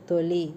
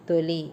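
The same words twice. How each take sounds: No difference in how they are said.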